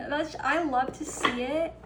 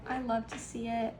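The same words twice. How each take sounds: First: Louder, thrilled exclamation; excited. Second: Said in the usual way. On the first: Real, not acted. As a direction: burst out with delight. Excited at the Magician card.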